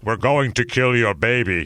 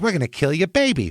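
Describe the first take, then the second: First: It is said in a deep, menacing voice. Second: It is said in a light, casual voice. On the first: The threat seems truly frightening. "James Earl Jones is going to kill our baby" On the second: The threat would not seem frightening. "he was just like, "Hey, what's going on, pal?"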